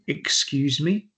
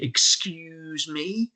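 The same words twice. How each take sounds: First: It is said in a polite tone. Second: It is said in a reprimanding tone.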